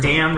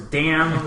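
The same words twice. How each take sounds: First: Louder, punched "damn"; mildly raised, imitated curse; retold loud cuss. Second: Said in the usual way. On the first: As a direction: quote the cartoon hero's cuss loudly. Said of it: "real loud". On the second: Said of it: "Like, Raphael said".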